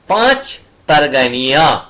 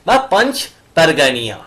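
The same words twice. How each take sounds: First: পাঁচ pronounced like the Bengali number five; Bengali reading. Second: পাঞ্চ pronounced the English way, n sounded; English reading. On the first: Teacher giving students the Bengali reading of the name. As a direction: say পাঁচ with the Bengali vowel and no n, as পাঁচ পারগানিয়া. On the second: Teacher giving students the English reading of the name. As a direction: say পাঞ্চ with a clear n, like the English word punch. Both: Shown as a demonstration.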